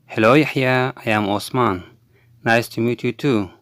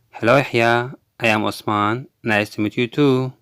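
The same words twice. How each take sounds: The two takes are said the same way.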